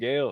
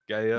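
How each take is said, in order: First: The name is said in plain American English. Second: The name is said with a foreign accent. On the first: "like Gale, like like straight up" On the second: "more like with an accent"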